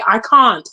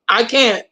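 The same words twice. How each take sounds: First: It is said in a British accent. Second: It is said in the speaker's usual accent.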